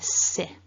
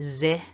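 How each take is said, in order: First: The first consonant is unvoiced, a hissing s. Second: The first consonant is voiced, a buzzing z. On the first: The speaker calls it right. "No voicing" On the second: The speaker calls it wrong. "otherwise it would be zi. Don't want that"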